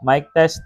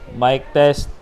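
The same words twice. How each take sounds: First: Background noise is removed, leaving a clean voice. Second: Surrounding noise is clearly heard behind the voice. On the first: "naka-turn on ngayon guys yung noise cancellation" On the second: "malamang naririnig nyo yung surroundings ngayon. Medyo maingay"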